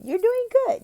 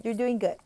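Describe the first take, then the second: First: High, loud cheer of praise; encouraging praise. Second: Said in the usual way. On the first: Shown as a demonstration. Tutor praises the child's reading with a high cheer. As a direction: lift the child's confidence.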